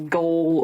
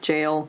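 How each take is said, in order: First: The word begins with a hard g sound. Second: The word begins with a j sound. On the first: The speaker calls it wrong. "I wanted to read it as goal or goalers, but no" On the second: The speaker calls it right. "you just pronounce it as jail and jailer"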